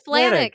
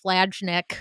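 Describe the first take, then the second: First: The name has no j-like sound in the middle. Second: The name has a j-like sound in the middle. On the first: The speaker calls it right. "Ben's last name was pronounced Flanick" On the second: The speaker calls it wrong. "I was always saying, like, Flajnick"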